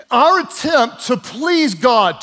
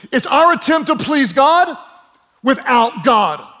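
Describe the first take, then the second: First: Said in the usual way. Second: Louder and higher, hammering the point; emphatic shout. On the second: Real, not acted. Preacher shouting the point to the congregation, emphatic. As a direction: raise the voice to drive it home.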